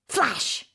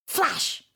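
Both takes have the same delivery.

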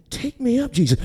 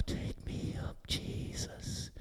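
First: Higher-pitched, small quick plea; quick obedient repeat. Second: Barely audible, unvoiced whisper. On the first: Retold or imitated. She repeats it to Jesus, high and quick. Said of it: "And she said". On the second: Still small voice to her, whispered. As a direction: whisper it slowly like a voice in the ear. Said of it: "The voice said".

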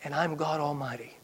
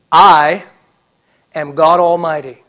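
First: Preacher quietly voicing God; hushed divine declaration. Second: Very loud, emphatic "I", then a pause; preacher proclaiming in God's voice; thundering divine declaration. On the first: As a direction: let it drop to a quiet assurance. God's declaration repeated softly. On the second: Acted. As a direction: boom it out as God Almighty. God declares himself, preacher thundering.

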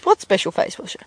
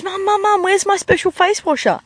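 First: Lightly voiced puzzled mum; a hint of a mum playing innocent; mum replying. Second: Put-on high-pitched kid calling for mum; higher, insistent daughter voice; pleading daughter. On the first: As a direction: answer as mum, close to your own voice. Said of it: "And her mum goes". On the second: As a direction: whine it urgently like a child. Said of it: "her daughter comes in the door".

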